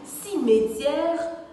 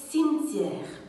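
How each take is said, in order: First: The word is said with more than two syllables. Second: The word is said in two syllables. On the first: The speaker calls it wrong. "la prononciation correcte de ce mot n'est ni cimetière" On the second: The speaker calls it right. "on doit le diviser en deux parties"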